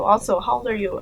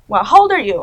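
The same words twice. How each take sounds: First: Said in the usual way. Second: Louder mock disbelief; louder incredulous question.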